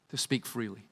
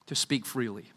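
Both takes have the same delivery.

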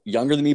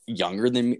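First: "me" pushed higher and louder; stress on me. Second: Said in the usual way. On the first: Real, not acted. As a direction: land the correction on "me". Self-correction, repeats the phrase.

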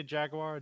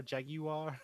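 First: Said in the usual way. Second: "Jaguar" in three beats, JAG-yoo-ar; British pronunciation. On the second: Retold or imitated. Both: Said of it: "how do they say jaguar".

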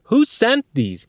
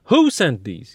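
First: "sent" pushed high and slow; stress on SENT. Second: "Who" hit hard, "sent these" lighter; stress on WHO. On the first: Teacher moving the stress onto "sent" to change the meaning. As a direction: stretch "sent", high and insistent. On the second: Teacher showing stress on "Who" in "Who sent these". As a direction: punch "Who" to ask which person. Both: Shown as a demonstration.

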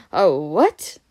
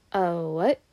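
First: Loud, baffled question, rising sharply; startled question. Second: Said in the usual way. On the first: A narrator's reading. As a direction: blurt it out loudly in disbelief. Harry's retake, far louder question.

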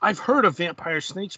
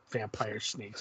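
First: Said in the usual way. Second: A quiet flat repeat of "Vampire snakes"; deadpan disbelief. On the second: Real, not acted. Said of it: "Come on, Bill".

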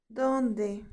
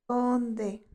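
The two takes are said the same way.

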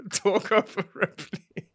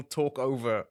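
First: Higher and louder, slow, laughing through it; laughing exaggeration. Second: Said in the usual way. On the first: Co-host mocking men who talk over Ripley, laughing and higher.

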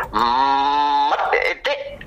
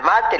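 First: "mate" after a long hummed m, ending in a stutter; stuck, stuttered "mate"; silly pronunciation. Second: Said in the usual way. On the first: Shown as a demonstration. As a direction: hum into "mate", then pop the last syllable upward. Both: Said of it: "Al mate le digo".

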